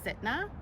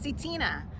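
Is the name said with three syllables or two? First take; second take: two; three. First: The name is squeezed into two syllables. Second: The name has three syllables, C then Tina. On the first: The speaker calls it wrong. "I say it as like Sitna, but that's not right" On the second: The speaker calls it right. "It's C. Tina"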